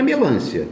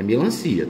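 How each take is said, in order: First: Melancia said as me-LÂN-cia, pitch jumping up; wrong stress. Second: Melancia said as me-lan-CI-a, lower and settled; correct stress. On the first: Teacher mocking the wrong form, melancia with stress on LÂN. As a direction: stress melancia on the second syllable. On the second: Teacher giving the right form, melancia stressed on CI. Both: Shown as a demonstration. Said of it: "é melancia".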